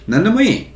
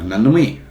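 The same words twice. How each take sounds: First: It is said politely with a higher pitch. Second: It is said in a grumpy, bad-mood tone. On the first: The speaker is happy with anything. "It sounds more polite. ... I tried to do higher pitch for the second" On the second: The speaker doesn't care at all. "if I'm in a bad mood and you ask me"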